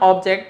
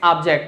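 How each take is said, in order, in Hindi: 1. पहला स्वर 'oh' ध्वनि है। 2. पहला स्वर 'ah' ध्वनि है। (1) "इट्स नॉट ऑब्जेक्ट, ओ की जगह ओ का साउंड नहीं दिया जाता" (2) "ओ की जगह किसका साउंड दिया जाता है, आ का साउंड दिया जाता है"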